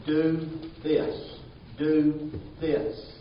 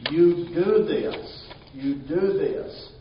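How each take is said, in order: First: "Do this" said firmly, stress on "Do"; emphatic command. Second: Slow, louder "You do this" with weight on "do"; emphatic command. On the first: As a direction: press hard on "Do". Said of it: "it has this emphasis of being emphatic". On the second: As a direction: hammer "do" slowly like an order. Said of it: "It has this emphasis of". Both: Shown as a demonstration.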